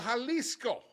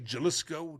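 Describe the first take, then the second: First: It is said with a native Spanish accent. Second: It is said with an American English accent.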